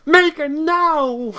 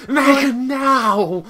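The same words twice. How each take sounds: First: Higher, drawn-out bellow right into the mic; close-up shout. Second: High, loud, drawn-out mock command; held-back shout. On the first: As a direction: shout the command long, close to the microphone. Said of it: "Just, I'll get closer". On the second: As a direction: shout it long, as loud as you dare. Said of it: "I can't be too loud, unfortunately". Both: Shown as a demonstration.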